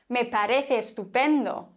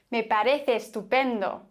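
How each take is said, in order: First: The two E sounds merge into one. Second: The two E sounds merge into one.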